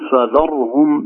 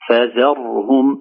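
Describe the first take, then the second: First: The f and dh sounds are made heavy. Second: The consonants are light and the r is smooth. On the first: The speaker calls it wrong. "لا نفخم الفاء ولا الزال" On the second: The speaker calls it right. "نقول فذرهم ونحذر من قلقلة الراء"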